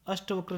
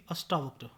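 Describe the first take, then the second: First: अष्टवक्र with short ṭa; mispronunciation. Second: Said in the usual way. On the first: Shown as a demonstration. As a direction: say ash-ṭa-vakra for अष्टवक्र. (अष्टवक्र, छोटा ट) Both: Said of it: "नहीं".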